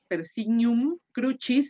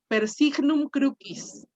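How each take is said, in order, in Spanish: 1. Usa la pronunciación eclesiástica del latín. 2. Usa la pronunciación clásica restaurada del latín. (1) "dicen en el latín la pronunciación eclesiástica" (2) "con la pronunciación eh, clásica, restituta, es decir, reconstruida"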